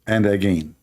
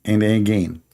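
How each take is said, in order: Both takes have the same delivery.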